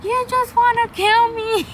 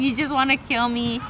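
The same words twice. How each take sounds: First: High, loud, strained mock wail; mock wailing yell. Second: Said in the usual way. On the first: Exhausted on the run, yelling at her trainer, high wailing yell. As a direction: whine it out like she's killing you. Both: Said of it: "So I'm yelling".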